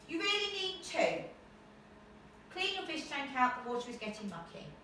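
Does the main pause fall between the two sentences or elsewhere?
elsewhere. The main pause falls somewhere other than between sentences. The speaker calls it wrong. "No, it doesn't sound, does it?"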